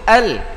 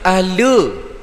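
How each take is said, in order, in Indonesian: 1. Bunyi l berakhir bersih tanpa vokal tambahan. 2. Bunyi l dilepas dengan bunyi vokal tambahan. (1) "yang patut sepatutnya disebut al" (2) "Seolah-olah kita telah qalqalahkan huruf lam"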